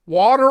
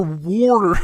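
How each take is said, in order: First: Said in the usual way. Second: "water" said as "warter", loud and drawn out. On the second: Shown as a demonstration. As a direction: put an R in the first syllable of "water". Contrasts two sayings of water.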